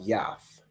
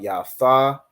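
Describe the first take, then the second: First: The syllables merge into one, dropping the final vowel. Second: The two syllables are said separately, with full vowels. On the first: The speaker calls it right. "the ya and the tha join together to make yath" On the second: The speaker calls it wrong. "instead of it being wa ha ba ya tha"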